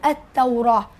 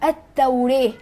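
First: The long vowel after r is a full open a. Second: The long vowel after r leans toward e. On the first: "والذين يقولون بالفتح يقولون التوراة" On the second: "الذين يقولون بالإمالة فيقولون التوريه"

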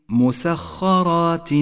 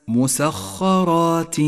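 No difference in how they are said.

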